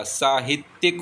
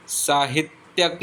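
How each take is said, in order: First: साहित्यिक ending in "-tyik"; short i before the k of साहित्यिक; correct ending. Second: साहित्यक ending in "-tyak"; wrong ending. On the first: Teacher giving the correction, साहित्यिक said with "-tyik". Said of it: "साहित्यिक होता है". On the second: Teacher showing the mistake, साहित्यक said with "-tyak". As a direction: put "ya" before the k of साहित्यक. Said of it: "साहित्यक नहीं होता". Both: Shown as a demonstration.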